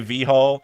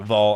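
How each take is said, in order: First: The name is said as two separate syllables. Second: The name is said as one single syllable. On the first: The speaker calls it wrong. "I always say V Hall" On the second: The speaker calls it right. "V Hall is pronounced like Vol"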